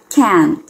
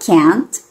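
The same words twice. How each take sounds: First: The final T is held without release. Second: The final T is clearly released. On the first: "o T vai ficar agarradinho" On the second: "Você pode deixar o som do T e falar can't"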